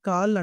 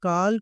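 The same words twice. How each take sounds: No difference in how they are said.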